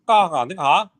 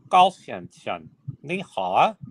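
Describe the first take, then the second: First: It is said quickly, at normal speed. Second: It is said very slowly.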